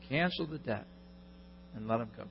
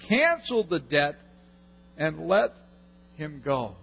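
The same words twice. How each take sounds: First: Hushed "Cancel the debt and let him go"; softly savoured restatement; quiet emphasis. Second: Said in the usual way. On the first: Shown as a demonstration. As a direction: repeat it much softer, letting it sink in.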